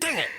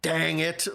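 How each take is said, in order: First: The word dang is said short and tight. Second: The word dang is stretched out slowly. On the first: The annoyance sounds sharp and biting. The speaker calls it right. "if you do it short, sweet and like tight" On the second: The annoyance loses its bite. The speaker calls it wrong. "You can't elongate dang. You can be like dang it. Like that that loses its teeth"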